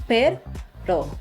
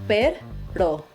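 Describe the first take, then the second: The two takes are said the same way.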